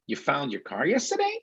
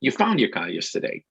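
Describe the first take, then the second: First: Soft question rising on "yesterday"; gently questioning, tune climbing through "yesterday"; rising intonation. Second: Statement tune falling on "yesterday"; matter-of-fact statement, closing downward on "yesterday"; falling intonation. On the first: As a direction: lift "yesterday" at the end like a question. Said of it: "rising intonation". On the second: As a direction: let "yesterday" drop at the end, no question. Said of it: "Or the intonation could be falling". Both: Shown as a demonstration.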